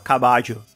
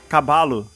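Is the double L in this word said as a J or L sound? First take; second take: J sound; L sound. First: The double L is said as a J sound. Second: The double L is said as an L sound. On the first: "Você tem que trocar todos os L's por J" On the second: "se tiver escrito"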